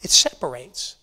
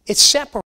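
First: Said in the usual way. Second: It separates repeated louder and higher, hitting separates; emphatic repeat. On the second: Shown as a demonstration. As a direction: punch separates the second time.

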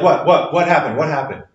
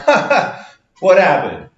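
First: Quick, worried what happened; alarmed. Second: High, amused what happened; laughing it off. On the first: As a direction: ask in sudden alarm. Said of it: "Usually you're like". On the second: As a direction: chuckle through the question. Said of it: "You're not sitting there going". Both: Retold or imitated.

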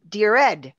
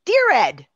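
First: Said in the usual way. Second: Loud, higher-pitched exclaimed greeting; exclamation point. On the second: Shown as a demonstration. Showing how everyone writes emails with exclamation points, exclaiming. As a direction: punch it out like an email exclamation mark. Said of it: "the exclamation, everyone's like".

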